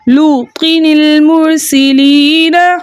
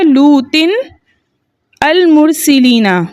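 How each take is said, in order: First: The nun takes an i-vowel and links onward. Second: The words are said separately, nun not linked. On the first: "नून साकिन को जेर देके अगले कलमे से मिला के पढ़ा" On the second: "कलमा क्या था?"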